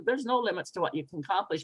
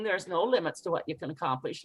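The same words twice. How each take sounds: First: Fast, toneless rattle; quick throwaway line; uninspiring. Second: Fast, dismissive preaching; hurried, preachy brush-off; rushed preachy. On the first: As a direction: say it fast without meaning it. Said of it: "I could just say it as". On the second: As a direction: rattle it off like a lecture. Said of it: "or me preaching". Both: Shown as a demonstration.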